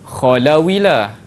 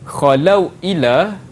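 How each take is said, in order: First: The w runs straight into the vowel. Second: A glottal stop separates the two words.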